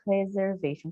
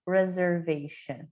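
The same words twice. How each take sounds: First: "Reservation" with a Portuguese R at the start; mispronounced "Reservation" with a Portuguese R. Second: "reservation" with a curled English R; retroflex R. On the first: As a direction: say "Reservation" the Brazilian way, wrong R. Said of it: "tendência a querer falar reservation". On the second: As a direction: curl the tongue back on the R of "reservation". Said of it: "Ele é mais enroladinho". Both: Shown as a demonstration.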